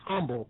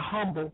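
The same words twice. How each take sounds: First: The word starts with an h sound. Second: The word starts without an h sound. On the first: The speaker calls it right. "It is an H in there. It's humble" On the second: The speaker calls it wrong. "highfalutin people who say humble"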